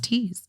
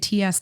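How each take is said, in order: First: It is said as one word, like tease. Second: It is said as two separate letter names. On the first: The speaker calls it right. "it's just T's" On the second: The speaker calls it wrong. "A lot of people like to say T S Tangles"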